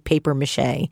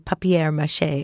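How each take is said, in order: First: The first part sounds like English paper. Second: The first part sounds like French-style papier. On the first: This is the plainer way to say it. "I say paper-mâché" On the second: This is the more elegant way to say it. "you also say papier-mâché"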